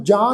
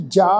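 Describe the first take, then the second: First: ਜਾ with a nasal aa, as jaan; ਜਾ said as if dotted, through the nose; wrongly nasalised. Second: ਜਾ with an oral long aa; ਜਾ as plain jaa, not jaan; non-nasal vowel. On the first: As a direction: nasalise the vowel of ਜਾ. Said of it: "ਕੰਨਾਂ ਉੱਪਰ ਬਿੰਦੀ ਲਗਾ ਕੇ". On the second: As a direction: say ਜਾ open, with no nasal ending. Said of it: "ਪਾਠ ਹੈ ਜੀ ਜਾ". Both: Shown as a demonstration.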